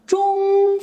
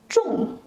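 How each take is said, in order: First: The pitch stays high and level. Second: The pitch starts high and drops sharply. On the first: It means medium. "Zhong first tone, high and level" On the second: It means heavy. "Zhong false tone, sharp and falling"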